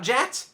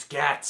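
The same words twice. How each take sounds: First: "jats" starting as in general; wrong soft g. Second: "gats" starting as in gap; correct hard g. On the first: Correcting the acronym, "jats" with a soft j sound. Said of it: "It's not jats". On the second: Correcting the acronym, "gats" with a hard g. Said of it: "it's gats". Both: Shown as a demonstration.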